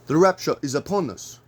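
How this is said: It is said in a put-on African accent.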